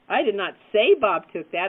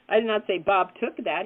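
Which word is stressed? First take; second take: say; took. First: The stress is on the word say. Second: The stress is on the word took.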